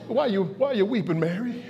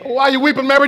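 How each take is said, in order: First: Much softer, low and tender; gentle Jesus. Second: Said in the usual way. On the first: Acted. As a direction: hush down and comfort her. Jesus gently speaking to Mary.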